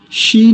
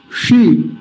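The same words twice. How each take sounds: First: शी with an ordinary palatal sh, tongue forward; plain shee, not curled back, शी; wrong palatal sh. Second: शी with the tongue curled back where ट is made; dark retroflex shee, शी; correct retroflex sh. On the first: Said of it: "शी नहीं". (गलत उच्चारण, तालव्य शी) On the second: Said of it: "जहां से ट का उच्चारण होता है". (सही मूर्धन्य शी) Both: Shown as a demonstration.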